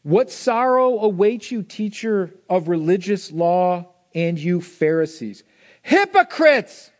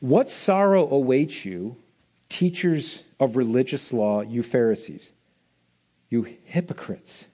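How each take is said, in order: First: Slow, high, loud rebuke of the Pharisees; Jesus scolding the Pharisees, loud and slow; Jesus rebuking. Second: Low, slow, solemn rebuke; Jesus' woe to the Pharisees, low and slow; lower, quieter reading of Jesus. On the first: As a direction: thunder it like a prophet, building to a cry on Hypocrites. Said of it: "This is what he says to them". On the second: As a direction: read it heavy and grave, almost under breath. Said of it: "This is what he says". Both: Acted.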